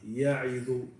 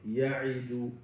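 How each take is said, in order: No difference in how they are said.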